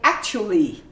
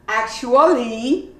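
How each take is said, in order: First: A syllable is dropped, leaving three syllables. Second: Every syllable is pronounced in full. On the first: The speaker calls it right. "you say actually" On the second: The speaker calls it wrong. "you don't say actually"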